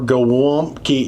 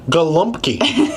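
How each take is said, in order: First: The word is said without an L sound. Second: The word is said with an L sound. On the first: "apparently you don't really pronounce the L" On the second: "It needed an L"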